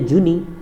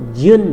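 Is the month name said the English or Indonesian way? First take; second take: Indonesian; English. First: The name is said the Indonesian way. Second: The name is said the English way. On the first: The speaker calls it wrong. "Beberapa di antara antum masih menyebutnya Juni" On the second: The speaker calls it right. "tapi yang betul June"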